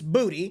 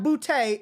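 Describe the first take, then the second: First: The name ends with an 'ee' sound. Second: The name ends with an 'ay' sound. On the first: The speaker calls it right. "It's Booty" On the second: The speaker calls it wrong. "It is not Boutte"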